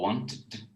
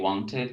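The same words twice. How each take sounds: First: The ending is a single consonant, no extra syllable. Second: The ending is an extra syllable with a vowel. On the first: The speaker calls it wrong. "You don't say wanted" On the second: The speaker calls it right. "You say wanted and needed"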